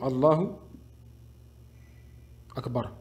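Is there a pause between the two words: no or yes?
yes. There is a gap between the two words. The speaker calls it wrong. "Et non Allahu Akbar. Ça, c'est faux"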